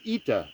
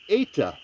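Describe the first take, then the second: First: The first vowel sounds like 'ee'. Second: The first vowel sounds like 'eh'. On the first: This is the modern Greek pronunciation. "in modern Greek, it's ita" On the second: This is the ancient Koine pronunciation. "in Koine Greek, it's pronounced eta"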